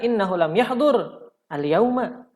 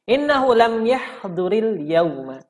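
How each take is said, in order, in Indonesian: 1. Yahdur dan al yauma diucapkan sebagai dua kata yang terpisah. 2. Yahdur berakhir dengan bunyi i yang menyambung ke yauma. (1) "Maka boleh juga seperti itu ya. Tapi ahsannya kita baca secara wa wasal" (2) "Dijarkan. Ya, dikasrohkan. Apanya? Huruf ro-nya"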